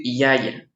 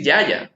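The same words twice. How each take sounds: First: "yaya" with y sounding like i, "iaia"; "yaya" with i-like y, not a consonant; correct Quichua y. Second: "yaya" with a hard Spanish y, like "ʝaʝa"; "yaya" said the Spanish way, consonant y; "yaya" with a firm consonant y sound; wrong Spanish y. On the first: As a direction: soften the y in "yaya" to an i glide. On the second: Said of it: "no vamos a decir yaya". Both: Shown as a demonstration.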